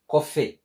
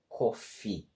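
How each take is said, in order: First: The final vowel sounds like 'eh'. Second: The final vowel sounds like 'ee'. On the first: The speaker calls it wrong. "It's not like coffee" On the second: The speaker calls it right. "but coffee. Because double E carries the E sound"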